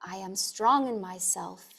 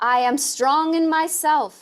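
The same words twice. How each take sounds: First: It is spoken softly in a normal voice. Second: It is spoken loudly and strongly. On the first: "a bit softer in a speaking voice" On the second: "repeating aloud with a very strong awakening"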